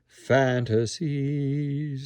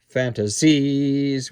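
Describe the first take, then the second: First: The first syllable is stressed, the last light. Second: The last syllable carries heavy weight. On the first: The speaker calls it right. "the stress is on the first syllable and take the weight out of the last syllable" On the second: The speaker calls it wrong. "we don't want"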